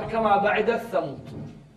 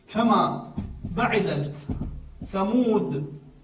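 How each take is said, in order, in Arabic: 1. تُدغم التاء في صوت الثاء الذي يليها. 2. تُنطق التاء بوضوح قبل الثاء. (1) "أن يدغم التاء بالثاء" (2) "لا يوجد عندنا في حفص إدغام"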